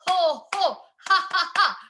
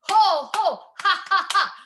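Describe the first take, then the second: No difference in how they are said.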